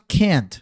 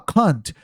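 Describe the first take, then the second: First: It is said in an American accent. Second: It is said in a British accent.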